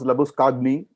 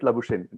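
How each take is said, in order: First: The name does not end like 'champagne'. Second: The name ends like 'champagne'. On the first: This is the name's original pronunciation. "they couldn't pronounce Labuskagni" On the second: This is the changed pronunciation that Australians could say. "they made it Labuschagne. ... we have champagne, which is the same spelling"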